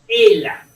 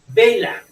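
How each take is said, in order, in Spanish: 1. El sonido inicial b se omite por completo. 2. La palabra empieza con un sonido b claro.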